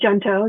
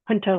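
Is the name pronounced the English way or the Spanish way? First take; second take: English; Spanish. First: The name is pronounced with English sounds. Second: The name is pronounced with Spanish sounds. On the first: "but it could be Junto" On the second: "I say Junto Institute because I also speak Spanish"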